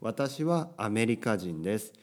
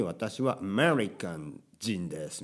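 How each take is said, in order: First: "アメリカ人" in even Japanese syllables; Japanese pronunciation. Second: Put-on slow Japanese with English accent on アメリカン. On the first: Shown as a demonstration. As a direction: model "アメリカ人" with pure Japanese sounds. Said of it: "日本語の発音でするべきです". (日本語の発音で) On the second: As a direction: imitate an American learner, English "American" inside Japanese. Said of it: "日本語学習者で英語を母国". (英語なまりの日本語)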